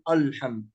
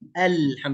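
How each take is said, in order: First: The opening vowel is heavy and thick. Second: The opening vowel is light and thin. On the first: The speaker calls it wrong. "لا نقول" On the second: The speaker calls it right. "فهنا الهمزة يا كرام مرققة"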